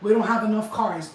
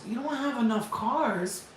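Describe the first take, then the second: First: Flat excuse, louder on don't; parroting the dealer's line, mildly mocking; quoting the dealer. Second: Slow disbelieving repeat, falling on don't; incredulous echo. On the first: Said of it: "I looked at him like". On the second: Retold or imitated. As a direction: drag it out like you can't believe it. Repeating dealer's excuse in disbelief.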